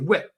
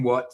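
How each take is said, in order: First: The word has a short 'ih'-like vowel. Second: The word has an open 'ah'-like vowel. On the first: "they would say whit" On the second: "Instead of saying what"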